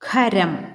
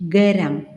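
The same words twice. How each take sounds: First: The first consonant is an aspirated kh. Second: The first consonant is a plain k. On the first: The speaker calls it right. "ശരിയായി ഉച്ചരിക്കുന്നതിന്" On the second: The speaker calls it wrong. "തെറ്റായി ഉച്ചരിക്കുന്നതൊന്ന്"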